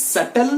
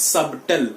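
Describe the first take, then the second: First: "subtle" as SUT-tl, b left out; silent b. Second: "subtle" with a sounded b, SUB-tl; slow "subtle", b pronounced; wrong subtle. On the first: Teacher repeats it for students, b silent. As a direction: raise the pitch and skip the b in "subtle". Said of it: "The B is silent over here". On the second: Teacher contrasts the mistake for students, b sounded. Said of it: "not subtle". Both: Shown as a demonstration.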